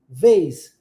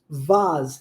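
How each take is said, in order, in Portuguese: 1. É pronunciado com sotaque americano. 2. É pronunciado com sotaque britânico. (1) "No inglês americano, pronunciamos vase" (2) "No inglês britânico"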